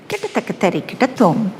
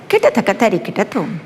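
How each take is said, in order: First: The syllables are recited in a lyrical, playful manner. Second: The syllables are recited in a lyrical, playful manner.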